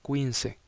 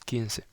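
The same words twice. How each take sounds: First: The word begins with a kw sound. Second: The word begins with a plain k sound. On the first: The speaker calls it wrong. "Es muy común que estudiantes nuevos pronuncien como quince" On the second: The speaker calls it right. "la pronunciación correcta es quince"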